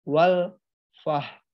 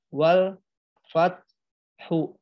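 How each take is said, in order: First: It ends in a soft h, no stress. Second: A full vowel is added after the ending. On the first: "bukan juga dibaca wal fah" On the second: "bukan dibaca wal fat hu"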